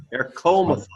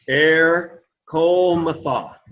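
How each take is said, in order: First: Said in the usual way. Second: "Air, Comatha" slowly, with Air held apart; broken into syllables. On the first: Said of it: "Let's say it together". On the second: Shown as a demonstration. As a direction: stretch Air, pause, then a long Co in "Comatha". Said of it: "Let's say the letters".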